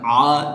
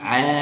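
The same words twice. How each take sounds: First: The sound is thick and heavy. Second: The sound is thin and light. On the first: The speaker calls it wrong. "jangan kita tebalkan, jangan a" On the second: The speaker calls it right. "huruf ain juga ini termasuk huruf tipis"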